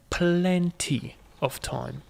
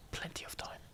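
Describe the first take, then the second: First: Slow, stretched-out "plenty"; drawn-out assurance. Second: Very soft, voiceless whisper; whispered echo. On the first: Player reassuring self about the clock, drawn out. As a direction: draw the word plenty right out. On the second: Player reassuring self about the clock, whispered. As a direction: whisper it under your breath. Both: Real, not acted.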